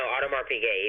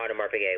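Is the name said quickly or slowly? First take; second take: slowly; quickly. First: The name is said slowly. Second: The name is said quickly.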